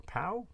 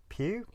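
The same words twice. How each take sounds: First: Pow said much higher and softer as a question; second French guess. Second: Pew said much higher as a doubtful question; Pew, rising, not sure of the French; guessing a town name, Pew with a questioning lilt; unsure French guess. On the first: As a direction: try Pow, rising, still unsure. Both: Shown as a demonstration. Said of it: "I can't speak French".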